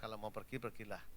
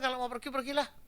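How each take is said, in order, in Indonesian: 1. Diucapkan dengan nada rendah yang menerima. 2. Diucapkan dengan nada tinggi yang kesal. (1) "Jadi pakai nada yang rendah aja" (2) "Itu berarti dia tidak setuju gitu"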